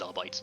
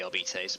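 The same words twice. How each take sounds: First: The word is given its colloquial pronunciation. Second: The word is given its formal pronunciation. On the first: This is the common everyday form. "most of the Low Gothic um, folks will probably refer to it as" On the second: This is the official upper-class form. "the High Gothic term might be"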